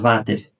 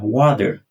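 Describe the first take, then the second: First: The word starts with a V sound. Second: The word starts with a W sound. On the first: The speaker calls it wrong. "você fala Vater" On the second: The speaker calls it right. "Em inglês não, wa, water"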